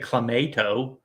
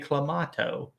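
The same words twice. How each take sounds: First: It is said with a typical American pronunciation. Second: It is said with a British-style pronunciation. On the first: "they don't say clamato" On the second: "they say clamato"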